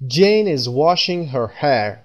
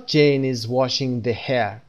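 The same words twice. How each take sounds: First: Right example, slow. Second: Wrong example. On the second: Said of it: "به این صورت نمیگیم". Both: Shown as a demonstration.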